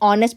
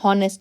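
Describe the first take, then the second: First: The word begins directly with a vowel. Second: The word begins with an h sound. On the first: The speaker calls it right. "इसको हम ऑनेस्ट पढ़ते हैं" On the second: The speaker calls it wrong. "इसको हम ऐसे पढ़ते हैं कि हॉनेस्ट, नहीं ना"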